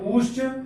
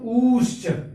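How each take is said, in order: First: The first vowel is held somewhat longer. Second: The first vowel is drawn out longest. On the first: "उससे थोड़ा सा और समय लगाएंगे" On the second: "और उससे और थोड़ा सा समय लगाएंगे"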